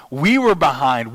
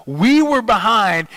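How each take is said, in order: First: Said in the usual way. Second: "We were behind" higher, louder and slower, like a hurting fan; fan's outcry. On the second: Shown as a demonstration. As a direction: groan it out like your team is losing. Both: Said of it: "talked about your team like that".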